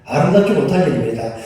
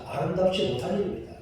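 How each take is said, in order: First: 아름답지 said louder and firm, falling; louder stressed 아름답지 restatement; firm emphasis. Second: 아름답지 못한 일입니다 said softly, rising at the end; quiet rising sigh on 아름답지. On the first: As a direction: press hard on 아름답지 못한. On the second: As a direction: murmur 아름답지 with a lifted ending. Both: Shown as a demonstration.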